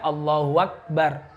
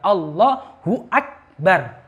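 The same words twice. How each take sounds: First: Akbar is joined on with a w sound. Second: Akbar begins with a clear glottal stop. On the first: The speaker calls it wrong. "Jangan Allahu akbar. Ini salah" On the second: The speaker calls it right. "Harus dijelaskan hamzanya akbar"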